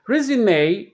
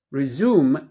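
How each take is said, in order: First: Resume stressed on its first syllable; the noun resume, high stressed RE, final A sound. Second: Resume stressed on its second syllable; the verb resume, stress on ZUME. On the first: Teacher showing learners the noun resume, stress on first syllable. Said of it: "The stress is on the first syllable". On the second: Teacher showing learners the verb resume, stress on second syllable. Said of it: "The stress is on the second syllable". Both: Shown as a demonstration.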